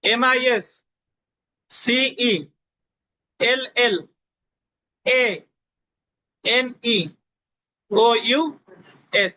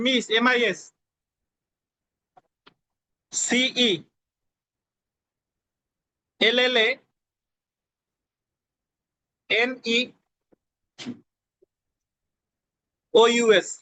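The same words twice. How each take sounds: First: Each letter group drawn out very slowly, even pauses; slower repeat of spelling. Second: Letter by letter, long pauses between letters; slow spelling dictation. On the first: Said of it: "আবার বলি শুনেন". (আরও ধীরে টেনে টেনে বানান) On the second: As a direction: spell it out slowly for students to write. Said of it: "আমি আস্তে আস্তে বলতেছি". (ধীরে ধীরে বানান বলা) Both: Shown as a demonstration.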